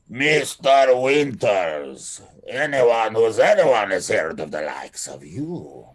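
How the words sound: It is said with a Russian accent.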